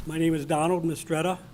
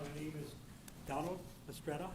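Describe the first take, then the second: First: Speaking up. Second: Barely audible, soft and far from the mic; mumbled softly, away from the mic; too quiet. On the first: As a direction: speak up so everyone hears. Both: Real, not acted. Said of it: "If you could speak up".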